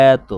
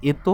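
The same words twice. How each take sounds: First: এত as "æ-æto", long open first vowel; correct open pronunciation. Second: এত as "eto", with close e; wrong literal pronunciation. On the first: Teacher showing what we really say, এত as long "æto". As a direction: stretch the start of এত like the vowel of "cat". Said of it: "এটাকে বলি". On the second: Teacher asking if we say this, এত as close-e "eto". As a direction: say এত as spelled, closed first vowel. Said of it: "কখনোই বলি না এত". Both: Shown as a demonstration.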